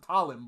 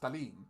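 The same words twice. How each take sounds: First: The name is said the common English way. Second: The name is said the Filipino way. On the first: The speaker calls it wrong. "most people pronounce it Talim" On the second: The speaker calls it right. "if she is Filipina, ... her name would be pronounced Talim"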